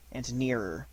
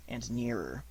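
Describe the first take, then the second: No difference in how they are said.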